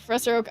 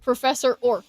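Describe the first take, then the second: First: The name is said in the ordinary way. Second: The name is said sounding like orc.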